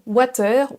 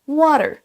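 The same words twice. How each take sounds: First: It is said with a French accent. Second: It is said with an English accent. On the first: The speaker calls it wrong. "Beaucoup de Français vont le prononcer water" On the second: The speaker calls it right. "Ce mot se prononce water"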